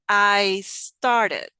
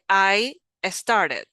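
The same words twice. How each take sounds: First: The two words are blended together. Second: The two words are said separately. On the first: The speaker calls it right. "I said I started... it's like if you blend the two sounds" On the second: The speaker calls it wrong. "I didn't say I started"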